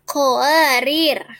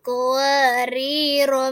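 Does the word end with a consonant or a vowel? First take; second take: consonant; vowel. First: The word ends on a bare r sound. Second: The word ends on a short vowel. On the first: The reciter stops after this word. "bila waqaf dibaca qawarir" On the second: The word is joined to the following words. "ro tidak dibaca panjang"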